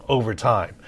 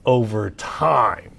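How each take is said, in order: First: Said in the usual way. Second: "over time" drawn out slowly, each word weighted; slow emphatic over time. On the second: Shown as a demonstration. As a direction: lean on "over time", let it stretch slowly.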